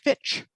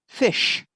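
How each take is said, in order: First: The word ends with a 'tch' sound. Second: The word ends with an 'sh' sound. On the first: The speaker calls it wrong. "People wouldn't understand that" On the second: The speaker calls it right. "it should be pronounced, "I'd like to order the fresh fish," not fitch"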